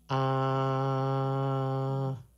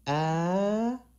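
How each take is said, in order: First: The pitch stays level throughout. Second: The pitch rises high throughout. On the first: "the normal A" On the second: "the uphill high pitched tone"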